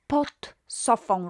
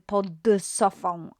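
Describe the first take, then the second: First: The word pod ends in a T sound. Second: The word pod ends in a D sound. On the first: The speaker calls it right. "the d consonant becomes t. So pod sofą rather than" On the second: The speaker calls it wrong. "rather than pod sofą"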